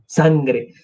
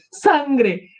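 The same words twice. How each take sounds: First: Said in the usual way. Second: High-pitched cry at the sight of blood; acted high exclamation; alarmed cry. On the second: Same word cried out in alarm.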